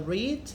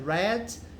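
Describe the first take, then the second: First: It is said in its present-tense pronunciation. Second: It is said in its past-tense pronunciation. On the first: The action happens now. "no presente é read" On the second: The action happened before. "no passado simples é read"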